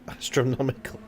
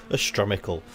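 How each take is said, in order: First: Said in the usual way. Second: "astronomical" squashed to "astromical"; "astronomical" slurred into "astromical"; made-up word. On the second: Real, not acted. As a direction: say "astronomical" without its "no" syllable, as "astromical". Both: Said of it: "I do make new words in this commentary".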